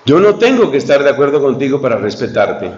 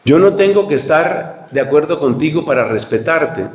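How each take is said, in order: First: "tengo" carries the main stress; "tengo" stressed, then a calm fall. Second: "no" leaned on as the key word; "no" firmly stressed, rest falling. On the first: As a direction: lean into "tengo", let "no" pass lightly. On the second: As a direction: put the weight on "no" and fall away after. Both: Shown as a demonstration. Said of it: "la misma frase de distintas maneras".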